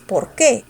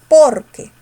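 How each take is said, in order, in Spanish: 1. El acento cae en la segunda sílaba, que. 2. El acento cae en la primera sílaba, por. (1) "Mayor fuerza la tiene la palabra qué" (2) "no es por qué, es porque"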